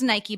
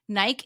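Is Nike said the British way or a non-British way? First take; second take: non-British; British. First: The brand name is said a non-British way. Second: The brand name is said the British way.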